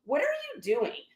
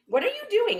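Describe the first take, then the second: First: Softly taken aback, slightly raised pitch; quiet disbelief. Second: Much higher, incredulous retold challenge; high-pitched disbelief. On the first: Retold or imitated. Shopper to woman going through her bag, quiet disbelief. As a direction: question them under your voice, stunned. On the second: Shopper pulling back from bag grabber, incredulous. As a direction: pitch the question right up in protest.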